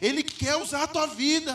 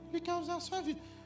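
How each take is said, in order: First: It is said in a dramatic prophet voice. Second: It is said in a plain, ordinary voice.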